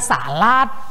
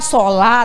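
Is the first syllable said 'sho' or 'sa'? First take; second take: sa; sho. First: The first syllable sounds like 'sa'. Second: The first syllable sounds like 'sho'. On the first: The speaker calls it wrong. "kita bilang salat" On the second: The speaker calls it right. "Misalnya sholat"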